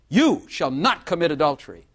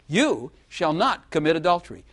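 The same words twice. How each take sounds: First: It is said as a stern command. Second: It is said as a reassuring promise. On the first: It orders the listener not to do it. "So is that a command?" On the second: It assures the listener they will not do it. "Or is it a promise?"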